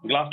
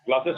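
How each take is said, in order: First: ग्लास as one syllable, no "es" ending; wrong singular form. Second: ग्लासेस with an extra final "es" syllable; plural ending sounded. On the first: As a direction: stop ग्लास at its first s. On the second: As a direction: say ग्लासेस in full, ending glass-es. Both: Shown as a demonstration. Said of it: "ग्लास नहीं होता".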